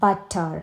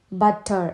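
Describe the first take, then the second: First: Said in the usual way. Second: ബട്ടർ broken into two slow beats, "but, ter"; split into syllables. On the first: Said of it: "ടു syllable എന്ന് പറയുമ്പോൾ". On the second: Shown as a demonstration. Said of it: "രണ്ട് syllable ആണ്". (ബട്ടർ രണ്ട് സിലബിളായി മുറിച്ച്, "ബട്ട്, ടർ")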